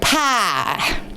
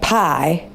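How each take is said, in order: First: Indiana accent, said as in that region. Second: Ohio accent, the vowel ending in a slight glide. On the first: "Where my mom grew up in Indiana, it'd be like pie" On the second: "where we grew up in Ohio, like pie, pie, yeah, so it's not quite a southern accent, so just like a little Y"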